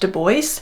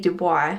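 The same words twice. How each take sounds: First: The name is pronounced in an anglicized way. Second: The name is pronounced the French way. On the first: The speaker calls it right. "he explicitly wanted it to be pronounced Du Bois" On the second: The speaker calls it wrong. "I am pronouncing W E B Du Bois's name wrong for this clip"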